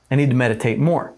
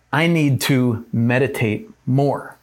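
First: Quick and brisk; fast. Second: Slow and deliberate. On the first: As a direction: rattle it off quickly. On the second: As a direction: draw each word out slowly. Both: Shown as a demonstration.

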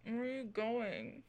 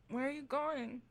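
First: Drowsy question, a touch softer; whispering over a crib. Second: Sleepy half-awake call. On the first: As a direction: call out sleepily, half-awake. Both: Acted. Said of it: "and you hear".

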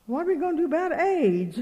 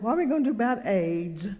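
First: Higher-pitched mock alarm; imitated worried fretting. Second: Said in the usual way. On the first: Worried camp lady fretting to the preacher's wife, imitated alarm. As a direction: repeat her worry in a raised, fretful voice. Repeats lady's worry, heightened.

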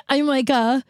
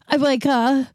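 Both takes have the same delivery.

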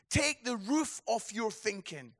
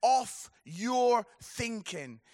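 First: Said in the usual way. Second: "off your thinking" drawn out slowly, weight on "off"; the sermon's title line, slowed and stressed; slow emphatic hook. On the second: Shown as a demonstration. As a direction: lean hard on "off" and stretch "off your thinking".

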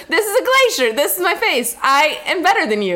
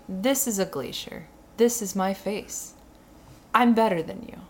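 First: Loud, high imitated catchphrase; delighted quoting. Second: Slow, understated mock smugness; deadpan selfie-taker. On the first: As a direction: recite the line with raised, punchy gusto. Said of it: "He goes". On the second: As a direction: recite the boast slowly and softly, like a quote. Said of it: "you're saying".

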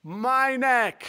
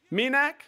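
First: Minak with falling tune, like an answer; Minak, said firmly. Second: Minak with a rising tune, as a question. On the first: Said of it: "Am I saying that right?". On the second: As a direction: Minak said MEE-nak, rising. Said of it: "Is that it?". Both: Real, not acted.

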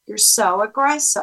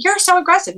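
First: Calm, neutral echo of their words. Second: High-pitched mock accusation; accusing. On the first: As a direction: repeat it back evenly, without arguing. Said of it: "say it in a calm way". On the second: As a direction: imitate someone blurting out an accusation. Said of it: "copy the way they say it". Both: Shown as a demonstration.

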